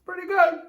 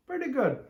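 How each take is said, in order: First: Higher, surprised approval; pleased verdict. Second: Said in the usual way. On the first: Real, not acted. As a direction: declare it with pleasure.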